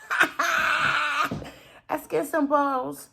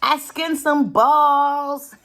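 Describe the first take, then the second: First: Laughing. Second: Loud, slow, drawn-out "balls"; triumphant announcement. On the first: Creator amused by own skinned balls joke, laughing. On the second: Creator boasting to viewers about skinned balls, loud and jokey. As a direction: belt it out as a silly boast. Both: Real, not acted.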